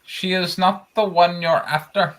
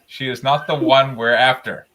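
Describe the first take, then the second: First: It is said in a put-on Apu voice. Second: It is said in a plain voice.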